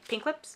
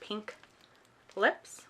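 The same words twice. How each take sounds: First: The name is run together as one word. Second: The name is said as two separate words. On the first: The speaker calls it right. "It's all one word, so I'm supposed to say" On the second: The speaker calls it wrong. "instead of"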